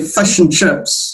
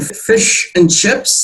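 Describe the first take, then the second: First: The vowel in fish sounds like a short u. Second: The vowel in fish is a clear i sound. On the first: "In New Zealand, it's more of a U" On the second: "instead of saying"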